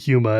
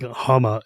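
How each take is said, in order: First: The first vowel is an 'oo' sound. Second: The first vowel is an 'ah' sound. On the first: This is how the name should be said. The speaker calls it right. "instead of Huma" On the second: This is how another player says the name. The speaker calls it wrong. "she also pronounces it like Hama"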